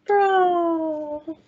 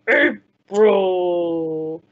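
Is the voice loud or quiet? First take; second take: quiet; loud. First: It is said in a tiny, quiet voice. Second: It is said in a big, loud voice.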